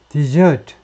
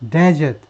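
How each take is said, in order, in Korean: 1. 강세는 두 번째 음절에 있습니다. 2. 강세는 첫 번째 음절에 있습니다. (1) "디저트하고 똑같은 게 동사 디저트입니다" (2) "명사가 되면 이제 액센트가 앞으로 와요"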